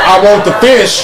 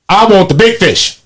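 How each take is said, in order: First: Said in the usual way. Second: BIG stressed, then falling on fish. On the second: Real, not acted. Speaker saying who should be charged, stress on BIG. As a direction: punch the word BIG.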